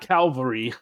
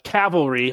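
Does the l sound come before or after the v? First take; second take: before; after. First: The l sound comes before the v. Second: The l sound comes after the v. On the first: The speaker calls it wrong. "Not cavalry" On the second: The speaker calls it right. "make sure I'm saying it correctly"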